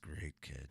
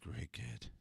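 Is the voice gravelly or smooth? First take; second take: gravelly; smooth. First: The voice is rough and gravelly. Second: The voice is smooth, without gravel. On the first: The speaker calls it right. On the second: The speaker calls it wrong.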